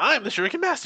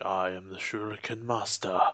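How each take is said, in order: First: The line is spoken excitedly and comically. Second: The line is spoken calmly and seriously.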